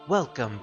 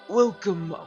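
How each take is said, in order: First: It is said in the speaker's normal voice. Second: It is said in a put-on old man's voice. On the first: The speaker calls it wrong. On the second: The speaker calls it right.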